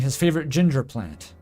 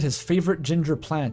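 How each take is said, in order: First: Ginger plant sounds like the name of a plant. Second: Ginger sounds like a hair colour describing the plant. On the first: The plant is a ginger plant. The speaker calls it right. "I mean" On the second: The plant is a redhead. The speaker calls it wrong. "I read that in a way that implied the plant was a redhead"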